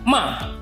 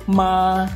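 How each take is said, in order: First: The pitch falls sharply from high to low. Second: The pitch stays high, level and long. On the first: It means to scold. "dimulai dari nada tinggi, kemudian langsung turun ke nada rendah" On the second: It means mother. "Nada pertama adalah nada suara tinggi, datar, dan panjang"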